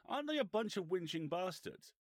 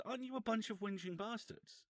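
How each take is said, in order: First: High, loud retold complaint with falling end; raised pitch and volume, dropping at the end; indignant aside question. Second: Very high retold question, rising at the end; high-pitched, rising challenge; direct mock accusation. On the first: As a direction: imitate an affronted boss checking with his PR. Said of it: "Davies looks across at his P R flag". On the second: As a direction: imitate a boss challenging someone to his face. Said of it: "Turns back to the guy".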